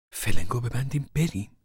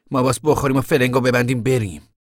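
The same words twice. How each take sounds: First: Raised, questioning echo without force; questioning disbelief. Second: Loud, raised, decisive push to go; urgent order. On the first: Mother questions Tom's plan to flee, taken aback. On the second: Tom tells the family to flee, loud and urgent. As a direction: press them forcefully to get moving. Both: Acted.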